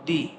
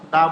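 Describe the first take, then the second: First: The vowel is long and high, like 'thee'. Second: The vowel is short and neutral, like 'thuh'. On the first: The next word starts with a vowel. "যদি শব্দের শুরুতে vowel থাকে তাহলে আমরা দি উচ্চারণ করবো" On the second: The next word starts with a consonant. "Consonant থাকলে আমরা দা বলবো"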